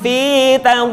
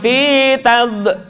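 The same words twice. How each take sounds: First: The final consonant is swallowed and held back. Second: The final consonant is released outward. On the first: The speaker calls it right. "ditelan fitad" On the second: The speaker calls it wrong. "Jadi bukan gini fitad, jangan dibuang"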